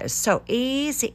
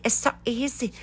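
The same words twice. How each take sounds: First: Sarcastic. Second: Higher, softer, put-on voice on so; mock breezy. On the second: Mocking how easy stripping audio seems, in a silly voice. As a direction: toss it off like it's nothing. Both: Shown as a demonstration.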